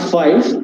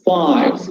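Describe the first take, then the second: First: The vowel is cut short. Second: The vowel is held long. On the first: The speaker calls it wrong. "not five" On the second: The speaker calls it right. "it is long vowel, so we have to uh, say five"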